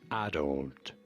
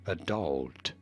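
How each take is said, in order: First: The stress is on the first syllable. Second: The stress is on the second syllable. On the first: "In British English, with an emphasis on the first syllable" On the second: "In American English, an emphasis on the second syllable"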